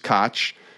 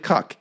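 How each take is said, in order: First: The name is said like 'Coke'. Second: The name is said like 'Cuck'. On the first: The speaker calls it wrong. "I just presumed it was Koch" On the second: The speaker calls it right. "It's actually Cuck"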